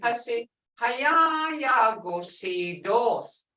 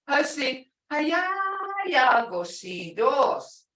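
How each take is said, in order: First: It is said plainly, without added emphasis. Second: It is said with an emphatic intensifying tone.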